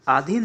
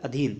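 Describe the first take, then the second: First: आधीन with long opening "aa"; wrong form. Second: अधीन with short opening "a"; correct form. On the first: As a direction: say आधीन as aa-dheen. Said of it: "नहीं होता". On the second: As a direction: say अधीन as uh-dheen. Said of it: "ये होता है". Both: Shown as a demonstration.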